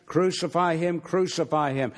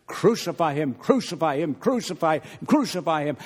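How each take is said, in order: First: Said in the usual way. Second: Repeated insistent crowd chant, a little louder; mob chant. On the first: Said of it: "they cried out". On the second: Retold or imitated. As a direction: chant it like the crowd outside, over and over. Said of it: "louder and louder".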